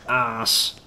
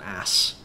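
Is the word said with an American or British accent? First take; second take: British; American. First: The vowel is said in a British way. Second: The vowel is said in an American way. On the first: The speaker calls it right. "ass is so much better" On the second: The speaker calls it wrong. "people of the North American persuasion"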